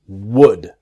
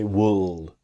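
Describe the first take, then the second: First: The L sound is silent. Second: The L sound is pronounced. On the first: The speaker calls it right. "the L is silent. It's would" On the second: The speaker calls it wrong. "It's easy to make the mistake to say wool"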